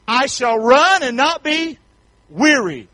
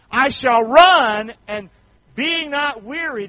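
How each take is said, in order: First: Slow, loud scripture line; slow loud preacher scripture; slow emphatic scripture. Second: Slow, high, stretched scripture; slow stretched preacher scripture; slow emphatic scripture. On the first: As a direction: lean hard into each word. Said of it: "scripture read emphatically". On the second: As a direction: draw each word out slowly. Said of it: "scripture read again". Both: Real, not acted.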